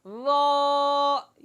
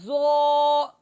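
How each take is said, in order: First: The vowel is said with an open mouth. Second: The vowel is said with rounded lips. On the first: The speaker calls it right. "मुंह खोलकर आवाज पूरे मुंह में फैलाकर पढ़ना" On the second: The speaker calls it wrong. "होंठ गोल करना"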